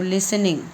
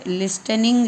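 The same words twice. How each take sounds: First: लिसनिंग as lis-ning, no t at all; the right way, लिसनिंग with a silent t. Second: लिस्टनिंग with the t sounded out; the wrong way, sounding the t in लिस्टनिंग; t pronounced. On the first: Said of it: "टी यहाँ पर silent होता है". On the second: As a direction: say लिस्टनिंग as list-ning, t clearly spoken. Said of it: "लेकिन टी यहाँ पर silent होता है". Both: Shown as a demonstration.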